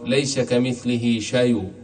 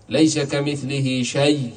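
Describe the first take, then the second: First: شيء ending with a faint trace of the vowel; rawm on the final letter. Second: شيء ending on a bare silent y; stop with a silent end. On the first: Teacher showing rawm on the final word. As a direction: say شيء slowly and let a breath of the vowel remain. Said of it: "كما يجوز لنا الروم". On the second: Teacher showing a plain stop on the word. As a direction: say شيء slowly and cut it dead. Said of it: "ثم نقف عليها". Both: Shown as a demonstration.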